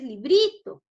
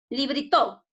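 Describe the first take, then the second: First: The stress is on the syllable bri. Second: The stress is on the syllable to.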